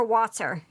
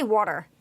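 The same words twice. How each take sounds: First: Said in the usual way. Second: "water" with a rounded "aw" first vowel; Philly "water". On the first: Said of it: "Northeast Philly for wa-, for water". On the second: Shown as a demonstration. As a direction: say "water" as "wawter", Philadelphia style. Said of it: "I say water".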